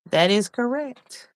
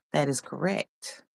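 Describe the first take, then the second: First: Higher, slower game-show announcement; announcing correct. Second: Under the breath first; soft that is correct. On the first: Host announcing the right answer to the viewers, higher and slower. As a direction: proclaim it like a quiz host. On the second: Host confirming answer quietly to herself. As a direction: murmur it low and soft. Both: Shown as a demonstration.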